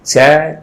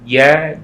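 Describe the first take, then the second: First: The j is made with the tongue tip, breathy. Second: The j is made with the middle of the tongue. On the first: The speaker calls it wrong. "keluar dari ujung lidah sehingga keluar hamesnya ... Nah itu salah ya" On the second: The speaker calls it right. "keluarnya dari tengah-tengah lidah"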